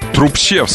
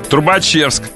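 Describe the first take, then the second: First: No vowel is heard after 'труб'. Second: An extra vowel is heard after 'труб'. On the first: The speaker calls it right. "Трубчевск вообще" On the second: The speaker calls it wrong. "Трубачевск, мне говорят"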